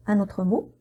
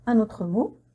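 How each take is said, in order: Both takes have the same delivery.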